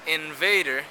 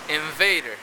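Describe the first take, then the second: First: The nasal is made with the tongue tip. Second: The nasal is made with lip against teeth. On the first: "instead of invader" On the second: "you can hear invader"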